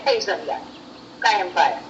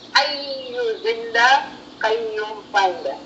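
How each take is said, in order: First: The phrase is said in a clipped, shortened form. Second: The phrase is said with every syllable in full. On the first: This is the everyday form that came from usage. The speaker calls it wrong. "now we just say Hayzanda, Kayam Paya" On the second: This is the original, proper form. The speaker calls it right. "the correct pronunciation is"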